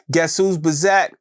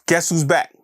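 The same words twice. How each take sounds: First: "back" stretched into a slangy "buh-zack"; higher, slow tease, playing with "back"; playful slang pronunciation. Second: Said in the usual way. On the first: Real, not acted. Host teasing listeners about a comeback, playful drawn-out "back".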